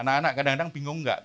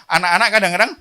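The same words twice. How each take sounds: First: Said in the usual way. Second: Calling out. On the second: Shown as a demonstration. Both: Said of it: "saya mau panggil ya".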